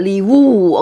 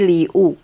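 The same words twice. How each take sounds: First: The second syllable starts with a clear W sound. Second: The second syllable has no W sound at all. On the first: The speaker calls it wrong. "don't sound the" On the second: The speaker calls it right. "no W come out. In Chinese we just say"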